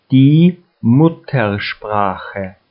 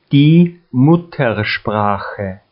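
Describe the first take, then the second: No difference in how they are said.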